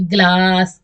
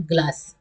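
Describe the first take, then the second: First: ग्लास with the aa stretched right out; exaggeratedly long aa in ग्लास; overlong vowel. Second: ग्लास with a short, easy aa; short vowel. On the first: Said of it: "ऐसे तो नहीं बोलना". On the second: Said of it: "short में बोलना है". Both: Shown as a demonstration.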